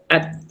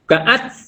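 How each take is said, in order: First: The final t ends cleanly without hissing. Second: The final t ends with a hissing release. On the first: The speaker calls it right. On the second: The speaker calls it wrong.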